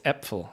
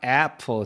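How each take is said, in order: First: The first vowel is a fronter 'eh'-like sound. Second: The first vowel is an open back 'ah'. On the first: The speaker calls it right. "It's Äpfel" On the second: The speaker calls it wrong. "It's not apfel"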